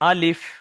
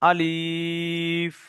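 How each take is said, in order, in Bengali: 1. শব্দটি ছোট ও দ্রুত করে বলা হয়। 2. শব্দটি লম্বা করে টানা হয়। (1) "তাড়াতাড়ি পড়লাম কেন" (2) "এই যে আলিফ বলে টান দেওয়া ভুল"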